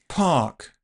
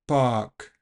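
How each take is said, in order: First: The first consonant has a puff of air. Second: The first consonant has no puff of air. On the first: "You should be able to hear that puff on the first version" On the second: "I didn't aspirate the second version"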